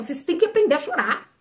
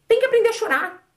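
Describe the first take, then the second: First: Said in the usual way. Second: "Tem que aprender a chorar" mais agudo, com "que" bem marcado; insistir, subindo o tom em "que"; ênfase enfática. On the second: Shown as a demonstration. Repete a frase com mais força. (repete à congregação com insistência, tom mais alto)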